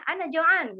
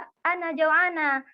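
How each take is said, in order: First: "Ana Joan" in an Arabic accent, pitched higher. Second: "Ana Joanna" dengan dialek Indonesia, slow and drawn out; logat Indonesia. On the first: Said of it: "Kalau Arabnya". (logat Arab, nada lebih tinggi) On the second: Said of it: "dialeknya dialek bahasa, bahasa Indonesia". (logat bahasa Indonesia, diucapkan pelan) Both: Shown as a demonstration.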